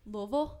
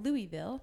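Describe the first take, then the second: First: The name is said in the local way. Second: The name is said in the outsider way. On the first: The speaker belongs to the place. The speaker calls it right. "say it properly?" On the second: The speaker is not from the place. The speaker calls it wrong. "when I used to call it Louisville"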